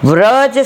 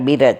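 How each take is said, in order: First: It begins with a v sound, one syllable. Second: It begins with a b sound, two syllables. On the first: "વ્રજ શબ્દનો" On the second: "મૂળ ઉચ્ચાર બિરજ છે"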